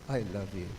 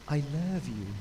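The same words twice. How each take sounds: First: It is said flatly and offhandedly. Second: It is said warmly and with feeling. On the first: The feeling is not really meant. The speaker calls it wrong. "oh, what?" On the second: The feeling is truly meant. The speaker calls it right. "Is that a bit better?"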